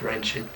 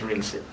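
First: The word is said like 'rench', ending in 'ch'. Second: The word is said like 'rinse', ending in 's'. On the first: Some other people say it this way. "some people pronounce it wrench it" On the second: The speaker's own way of saying it. "And it was rinse it"

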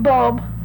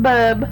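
First: The word is said with a clear L sound. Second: The word is said with no L sound.

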